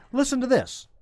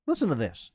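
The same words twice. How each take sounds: First: "Listen to this" pitched way up, then falling; corrected inflection. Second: Flat tone. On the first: Host correcting his tone before the news, high-pitched "Listen to this". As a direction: say "Listen to this" in a high, lilting announcement. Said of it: "I should say". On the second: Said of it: "I shouldn't say it with that tone". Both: Shown as a demonstration.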